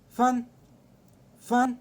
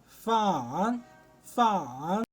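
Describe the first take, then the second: First: It is said with the fourth tone. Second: It is said with the third tone. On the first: "رابع لهجة معانا" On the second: "تالت لهجة معانا"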